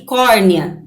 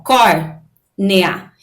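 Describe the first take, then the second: First: Said in the usual way. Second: "córnea" split slowly into cór and nea; syllable by syllable. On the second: Shown as a demonstration. Teacher shows the diphthong in córnea, slow separated syllables. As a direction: pause inside "córnea" between cór and nea. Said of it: "quando eu separo a sílaba".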